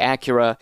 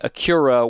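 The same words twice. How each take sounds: First: It is said with an American pronunciation. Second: It is said with a British pronunciation. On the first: "whereas we say Acura in the States" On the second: "or they might say Acura"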